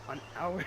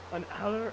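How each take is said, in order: Both takes have the same delivery.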